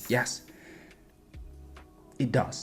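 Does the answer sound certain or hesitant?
hesitant. It sounds unfinished and hesitant. They still have questions left.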